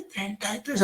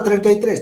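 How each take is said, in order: First: Much higher, much softer, feeble voice; frail old man. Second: Higher and louder, strong and clear. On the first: Retold or imitated. Teacher imitating an elderly patient who can't shout, feebly. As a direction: barely get the words out like a frail old man. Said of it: "No pueden gritar. Entonces, suavite". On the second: Shown as a demonstration. Teacher showing a young adult patient's strong voice. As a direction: belt it out like a healthy young adult. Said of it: "Diga fuerte y claro".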